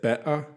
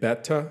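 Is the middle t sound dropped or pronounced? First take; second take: dropped; pronounced. First: The middle t sound is dropped. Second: The middle t sound is clearly pronounced. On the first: It marks a working class accent. "she wouldn't pronounce a lot of her T's" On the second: This is the standard way to say it. "instead of saying beta"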